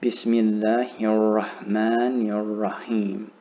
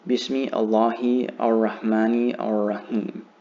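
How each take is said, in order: First: The words run together with linked articles. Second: The words are split with separate articles. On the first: The speaker calls it right. "I'm saying Bismillahir Rahmanir Rahim" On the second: The speaker calls it wrong. "it doesn't teach you the correct, what's called tajweed or pronunciation"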